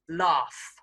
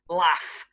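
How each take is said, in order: First: It is said in a southern English accent. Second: It is said in a northern English accent. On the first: "the south of England pronunciation" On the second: "one more example of the north"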